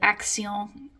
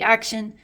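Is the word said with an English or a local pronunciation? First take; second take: local; English. First: It is said with the local, non-English pronunciation. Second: It is said with an English pronunciation. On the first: "there's a discount store here called Action" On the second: "if you were pronouncing it in English"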